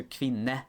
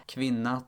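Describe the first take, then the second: First: "kvinne" ending in an E sound; Norwegian ending. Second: "kvinna" ending in an A sound; Swedish ending. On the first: Narrator contrasting Norwegian word endings with Swedish, Norwegian ending. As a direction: slowly say "kvinne" with a final E. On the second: Narrator contrasting Swedish word endings with Norwegian, Swedish ending. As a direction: slowly say "kvinna" with a final A. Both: Shown as a demonstration. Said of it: "the Norwegian equivalent".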